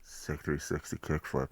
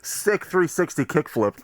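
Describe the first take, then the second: First: It is said at a softer volume. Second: It is said at a louder volume.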